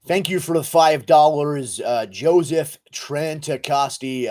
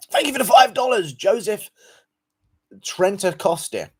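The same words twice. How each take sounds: First: Put-on slower retake in an American accent. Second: Loud, high-pitched donation shout-out; high, loud thank-you. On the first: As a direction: read it out like an American. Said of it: "Guru is American. Yeah, I am, dude". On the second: Real, not acted. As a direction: call out the thanks high, then stretch the surname. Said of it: "Sorry, let me go again".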